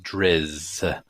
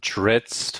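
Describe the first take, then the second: First: The name ends with little or no T sound. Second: The name ends with an audible T sound. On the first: This is how the audiobooks and the author say it. "without so much of the T" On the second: This is how the speaker has always said it. "with with a slight T sound at the end"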